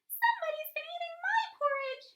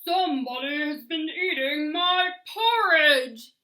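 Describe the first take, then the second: First: It is said in a high, squeaky voice. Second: It is said in a loud, growly voice.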